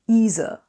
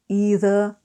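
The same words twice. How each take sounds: First: The middle consonant is a z sound. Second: The middle consonant is a th sound. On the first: "Replace all the T H's, the th, with a Z" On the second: "either with either"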